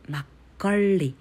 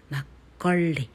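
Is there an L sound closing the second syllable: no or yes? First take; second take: yes; yes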